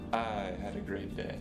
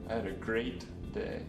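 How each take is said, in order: First: The stress is on the word "I". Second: The stress is on the word "great". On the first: Someone else did not have a good day. "The first time I emphasized the word I" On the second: The day really was great. "The third time, I stressed the word great"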